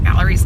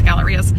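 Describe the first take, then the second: First: "galleries" ending in a plain "-eez"; corrected name galleries. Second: "Gallerias" ending in "-ee-as"; rejected name Gallerias. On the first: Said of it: "I think it's the galleries". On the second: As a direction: say "Gallerias" with the extra final syllable. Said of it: "not the Gallerias". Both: Shown as a demonstration.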